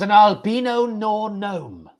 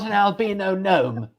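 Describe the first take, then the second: First: Gnome is said with an extra sound before it. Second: Gnome is said in the usual plain way. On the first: The speaker calls it wrong. "It was an albino nor gnome, not an albino gnome" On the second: The speaker calls it right. "because that would be pronounced correctly"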